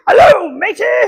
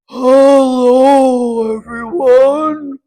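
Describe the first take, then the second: First: It is said in a pirate voice. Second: It is said in a deep voice.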